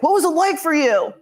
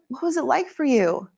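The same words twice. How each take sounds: First: It is said in a flat, offhand tone. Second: It is said in a warm, caring tone. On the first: The question is asked as a routine formality. The speaker calls it wrong. "not just like" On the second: The asker genuinely cares about the answer. The speaker calls it right. "in a loving way"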